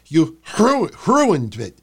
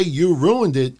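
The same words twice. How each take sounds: First: You ru- ruined it said with a break and stress on ruined; mock boss stress. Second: Said in the usual way. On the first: Shown as a demonstration. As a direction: stutter into ruined it. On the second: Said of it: "Vince didn't say".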